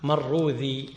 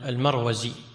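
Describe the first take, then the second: First: The name is said with a dh sound. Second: The name is said with a z sound. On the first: The speaker calls it right. "هو بالدال المعجمة" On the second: The speaker calls it wrong. "عندنا بالزاي المعجم"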